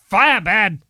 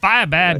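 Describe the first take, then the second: First: It is said in a put-on Frankenstein voice. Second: It is said in a plain, ordinary voice.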